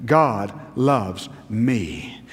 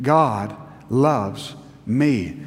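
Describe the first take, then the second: First: Said in the usual way. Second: Slow, earnest, leaning on God; mean every word of it; heartfelt declaration; said like you mean it. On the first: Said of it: "Let's all say that together". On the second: Shown as a demonstration. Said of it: "say it like you mean it".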